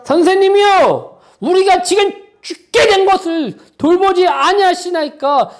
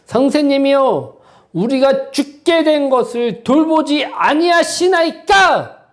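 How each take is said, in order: First: Disciples crying out, high and loud; desperate shout. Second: A slow, lightly raised reading of the disciples' cry; disciples' plea. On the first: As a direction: hurl the plea up like men about to drown. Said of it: "제자들의 이 말이 좋은 말로 들리십니까?". (죽을 것 같은 제자들의 절박한 외침) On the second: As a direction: read the plea slowly, only hinting at fear. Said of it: "그들이 한 얘기가 무엇일까요?". (제자들의 호소를 천천히 약간 높여 읽기) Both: Acted.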